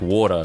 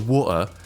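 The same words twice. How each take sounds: First: It is said with a mixed accent. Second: It is said with an English accent. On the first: Listeners struggle to understand it. "some kind of hybrid between the two" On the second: Listeners would recognise it more easily. "an English accent of being like water"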